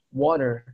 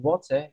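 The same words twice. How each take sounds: First: The middle consonant sounds like a soft D. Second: The middle consonant is a clear T sound. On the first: "huruf T di tengah-tengah kata itu cenderung berubah jadi huruf D" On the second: "instead of saying water"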